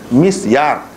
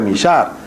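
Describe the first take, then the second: First: The s and y are said as separate sounds. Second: The s and y blend into one 'sh' sound. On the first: The speaker calls it right. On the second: The speaker calls it wrong.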